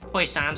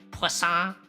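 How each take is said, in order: First: The name is pronounced in a plain English way. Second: The name is pronounced the French way, like croissant. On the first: The speaker calls it wrong. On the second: The speaker calls it right.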